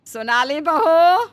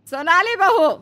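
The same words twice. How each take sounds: First: Slow, loud call across the house. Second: Louder, higher repeat call, falling. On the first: Mother-in-law calls the sleeping younger bahu, loud. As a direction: call her name loudly, rising. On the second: Mother-in-law calls the bahu a second time, insistent. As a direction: call again more insistently. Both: Acted.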